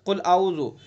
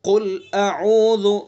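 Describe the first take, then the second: First: The glottal stop and throat sound are blurred together. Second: The glottal stop and throat sound are clearly separate. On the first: The speaker calls it wrong. "हमजा का और आइन का पता भी नहीं लगता" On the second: The speaker calls it right. "आइन को अलग अदा करना है और हमजा को साफ साफ"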